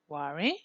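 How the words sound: The pitch rises at the end.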